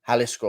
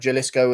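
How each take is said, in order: First: The word begins with a breathy H sound. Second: The word begins with a hard J sound. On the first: The speaker calls it right. "It's probably Jalisco or something with a H" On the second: The speaker calls it wrong. "Your pronunciation of Jalisco is terrible"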